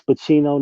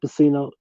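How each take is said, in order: First: "Pacino" as pa-CHEE-no, with a CH; correct name. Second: "Pacino" as pa-SEE-no, with an S; wrong name. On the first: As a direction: say "Pacino" with CH in the middle. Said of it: "know that it's Pacino". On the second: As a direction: say "Pacino" with a soft S in the middle. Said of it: "not Pacino". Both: Shown as a demonstration.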